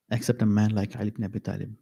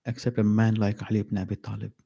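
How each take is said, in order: Both takes have the same delivery.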